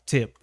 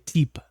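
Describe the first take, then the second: First: "tip" with a short, relaxed i; short i vowel. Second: "tip" said with a long ee, like teep; long ee vowel. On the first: Teacher gives the correct word, short i in "tip". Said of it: "I would say tip". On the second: Teacher shows his wrong version of the word, long ee in "tip". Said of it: "instead of tip". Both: Shown as a demonstration.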